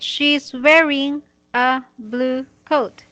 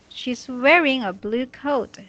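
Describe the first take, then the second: First: Each word is read separately with pauses between. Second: The words are read quickly with no pauses. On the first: The speaker calls it wrong. "This is how you said it" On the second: The speaker calls it right. "Just practice reading it fast, like this"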